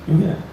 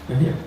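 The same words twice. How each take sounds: Both takes have the same delivery.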